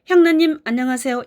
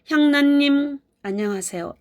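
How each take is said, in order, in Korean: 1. 이름 다음에 바로 인사가 이어져요. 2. 이름 뒤에 반 초쯤 멈춰요. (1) "이렇게 말하지 않겠죠" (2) "약간 잠깐의 멈춤이 있었어요"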